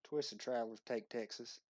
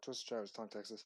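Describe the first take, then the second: First: It is said in a Southern Texan accent. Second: It is said quickly in a plain accent. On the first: The speaker calls it right. "your best Southern accent saying that" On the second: The speaker calls it wrong. "you just like ran right through that"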